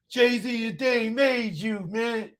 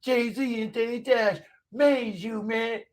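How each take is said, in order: First: Mocking sing-song. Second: Higher, slow, drawn-out taunt; mocking sing-song. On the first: Taunting a commenter on stream. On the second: Streamer mocks a heckler, slow high-pitched taunt. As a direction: stretch it out to rub it in.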